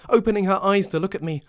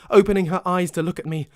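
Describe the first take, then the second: The two takes are said the same way.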